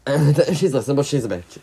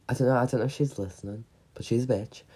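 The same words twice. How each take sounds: First: Louder, fast, laughing retake; giggly louder second go. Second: Said in the usual way. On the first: Shown as a demonstration. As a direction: blurt it out laughing. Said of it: "repeats louder". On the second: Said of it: "repeats it".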